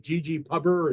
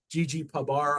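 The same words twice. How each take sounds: First: "pubber" said as one word, rhyming with rubber; pronunciation as one word. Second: "pub R" with the R said as a letter name; pronunciation with separate letter. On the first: Presenter unsure how to pronounce a package name, "pubber" as one word. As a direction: run "pubber" together, ending in a weak -er. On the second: Presenter unsure how to pronounce a package name, "pub R" with spelled-out R. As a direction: say "pub", then a distinct "ar" for R. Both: Shown as a demonstration. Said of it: "I never know how to pronounce these things".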